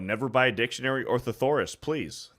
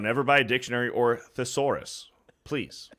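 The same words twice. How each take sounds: First: The sentence is read quickly. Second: The sentence is read slowly. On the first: "I said it quickly" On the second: "I slowed it down for you guys"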